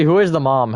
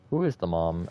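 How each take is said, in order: First: Who is the mom asked again, higher and louder; raised voice, asking the group again; louder repeated question. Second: Said in the usual way. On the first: Real, not acted. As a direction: call the question out so everyone hears. Asks, then repeats louder.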